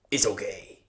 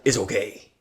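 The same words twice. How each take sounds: First: Soft breathy it's okay; big driver calmly shrugging off the damage; whispered reassurance. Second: Said in the usual way. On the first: Retold or imitated. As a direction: hush it gently. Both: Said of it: "He's like".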